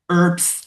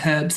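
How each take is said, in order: First: It is said the American way, h silent. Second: It is said with an audible h.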